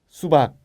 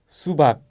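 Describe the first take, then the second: No difference in how they are said.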